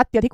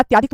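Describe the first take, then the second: First: अत्यधिक with a short "tya"; अत्यधिक, middle a kept short; correct short a. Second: अत्याधिक with a long "tyaa"; अत्याधिक, middle a held long; wrong long a. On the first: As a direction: say अत्यधिक as "atyadhik". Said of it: "अत्यधिक होता है". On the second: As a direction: say अत्याधिक as "atyaadhik". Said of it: "अत्याधिक थोड़ी होता". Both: Shown as a demonstration.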